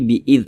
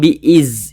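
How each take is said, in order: First: The last consonant is a th sound, tongue on teeth. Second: The last consonant is a plain z sound. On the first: The speaker calls it right. "tapi bi'idh begitu" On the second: The speaker calls it wrong. "jangan bi'iz"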